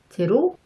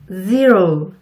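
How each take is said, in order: First: It starts with a Korean j-like sound. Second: It starts with a buzzing, vibrating z sound. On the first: The speaker calls it wrong. "흔히 지읒처럼 발음하시는 분들이 많아요" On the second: The speaker calls it right. "혀의 진동이 입술을 통해 느껴지신다면 제대로 잘 발음하고 계신 거랍니다"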